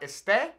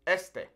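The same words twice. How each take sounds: First: Este wrongly stressed on the end, es-TAY, rising; stress on second syllable. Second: Este stressed on the first syllable, ES-te, falling. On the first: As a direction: put the weight on the final e of este. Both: Shown as a demonstration. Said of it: "That emphasis falling on that first E".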